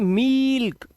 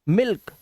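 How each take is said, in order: First: The vowel is drawn out long. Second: The vowel is short and quick. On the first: The speaker calls it wrong. "ये गलत हो जाएगा" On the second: The speaker calls it right. "जल्दी बोलना है"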